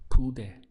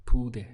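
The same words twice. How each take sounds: First: "pude" said clearly in two syllables, pu-de, higher and louder; careful model word. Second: "Pude" repeated as two clean syllables, pu-de; repeat model word. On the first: Teacher modelling "pude" for students, crisp two-syllable pu-de. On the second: Teacher repeats "Pude" for learners, clear two-syllable pu-de. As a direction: say "Pude" again, slowly splitting pu-de. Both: Shown as a demonstration. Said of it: "Two syllables".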